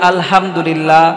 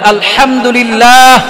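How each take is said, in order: First: The word is said in a simplified, easy way. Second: The word is said with careful, exact sounds. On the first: The speaker calls it wrong. "একটু সহজ করে বললেন" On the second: The speaker calls it right. "সঠিক উচ্চারণ"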